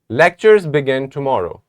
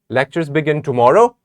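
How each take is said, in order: First: The voice falls at the end. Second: The voice rises at the end. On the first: It states a fact. "let us say it like a statement" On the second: It asks whether this is true. "This sounds like a question"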